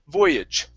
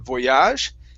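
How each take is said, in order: First: The stress is on the first syllable. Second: The stress is on the last syllable. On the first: The speaker calls it right. "the stress is at the very beginning of the word" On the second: The speaker calls it wrong. "instead of the end. Instead of voyage"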